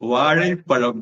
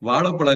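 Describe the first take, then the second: First: The middle consonant has the tongue curled back. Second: The middle consonant is a plain l sound. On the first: The speaker calls it right. "வாழைப்பழம் சொல்லு" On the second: The speaker calls it wrong. "வாழைப்பழம் இல்ல"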